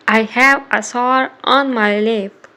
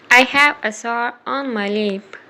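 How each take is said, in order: Both takes have the same delivery.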